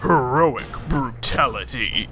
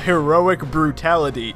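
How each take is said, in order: First: It is said in a Mortal Kombat announcer voice. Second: It is said in a plain speaking voice.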